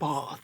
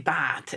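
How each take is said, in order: First: The word is said with an English vowel. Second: The word is said with an Irish vowel. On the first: This is how people around them say it. "instead of bath" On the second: This is how the children still say it. "they'll say bath"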